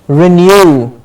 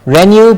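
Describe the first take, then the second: First: Renew as "ri-NEW", stress on NEW; renew, unstressed "ri", land on NEW; right renew. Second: Renew as "REN-yoo", first syllable stressed; wrong renew. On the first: Teacher modelling the correct renew, stress on NEW. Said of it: "but renew". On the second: Teacher showing the mistaken renew, stress on REN. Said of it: "It's not renew". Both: Shown as a demonstration.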